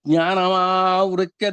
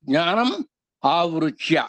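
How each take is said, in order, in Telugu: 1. రెండు పదాలు కలిపి ఒకటిగా అంటారు. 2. రెండు పదాలు విడివిడిగా అంటారు.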